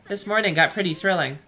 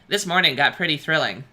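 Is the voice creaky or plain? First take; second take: plain; creaky. First: It is read in a plain, ordinary voice. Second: It is said in a put-on, creaky voice.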